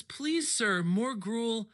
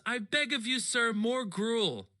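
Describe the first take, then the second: First: Slow, drawn-out pleading orphan bit; begging orphan. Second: Slow, hammed-up plea for more; begging orphan. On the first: Retold or imitated. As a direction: ham up a hungry orphan begging for more. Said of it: "he always says". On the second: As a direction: stretch out a mock orphan's begging. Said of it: "he always goes".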